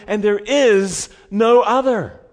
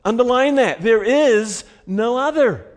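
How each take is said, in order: First: Said in the usual way. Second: Louder and slower on the repeat; slow emphatic repeat. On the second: Shown as a demonstration. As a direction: lean on every word slowly.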